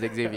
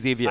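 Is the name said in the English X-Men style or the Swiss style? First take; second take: X-Men style; Swiss style. First: The name is said in the English X-Men style. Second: The name is said in the Swiss style. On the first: "The mutant way is Xavier" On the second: "then the Swiss way is Xavier"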